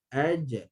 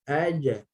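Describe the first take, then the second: First: The j is released with a short bouncing echo. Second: The same.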